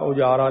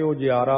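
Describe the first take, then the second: First: The middle 'ya' syllable is dropped entirely. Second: A clear 'ya' syllable is said in the middle. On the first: The speaker calls it wrong. "ਉਜਾਰਾ ਨਹੀਂ ਕਰਨਾ" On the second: The speaker calls it right. "ਜਈਆ ਲੱਗਿਆ ਕਰਕੇ ਉਜਿਆਰਾ"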